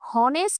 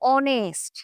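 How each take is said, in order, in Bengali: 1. শব্দটি একটি স্পষ্ট h ধ্বনি দিয়ে শুরু হয়। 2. শব্দটি একটি স্বরধ্বনি দিয়ে শুরু, কোনো h ধ্বনি নেই। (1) "উচ্চারিত কিন্তু হনেস্ট হয় নাই" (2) "অনেস্ট ওয়ার্ডটা উচ্চারিত হয়েছে কিভাবে?"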